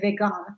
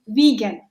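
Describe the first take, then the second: First: The word has a German-like pronunciation. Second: The word has its usual English pronunciation. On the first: "they just pronounce it differently. They say vegan, which is more like a German pronunciation" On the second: "this is an English word"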